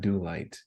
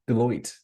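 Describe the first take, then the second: First: The second syllable sounds like 'light'. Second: The second syllable sounds like 'loyt'. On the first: The speaker calls it wrong. "It's not Do Light" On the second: The speaker calls it right. "There it is"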